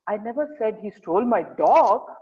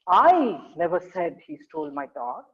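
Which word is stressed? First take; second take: dog; I. First: The word "dog" carries the emphasis. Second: The word "I" carries the emphasis. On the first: He stole something else, not the dog. "In the last sentence, I'm saying, I never said he stole my dog. Maybe he stole my car instead" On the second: Someone else said he stole the dog. "In the first sentence, it says, I never said he stole my dog. It means that I didn't say it"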